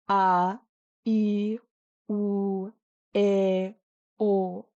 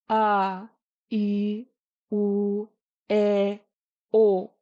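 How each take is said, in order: The two takes are said the same way.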